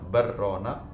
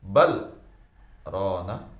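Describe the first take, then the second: First: The two words merge into one, with no break. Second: A brief break without breath separates the words. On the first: It would mean two people who keep a promise. The speaker calls it wrong. "dibaca barrona ... itu tidak tidak tepat, salah" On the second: It means rather, it has covered. The speaker calls it right. "yang benar dibaca kalla bal tanda saktah berarti sejenak tanpa nafas"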